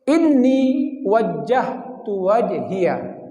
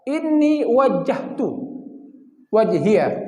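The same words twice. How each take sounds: First: The words run together without breaks. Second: The words are split apart with breaks. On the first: "Kalau digabung" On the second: "Kalau dipenggal"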